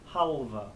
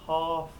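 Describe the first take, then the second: First: The L is sounded and there is a final vowel. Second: The L is silent and there is no final vowel. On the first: The speaker calls it right. "but halva" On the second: The speaker calls it wrong. "we're going to say it not half"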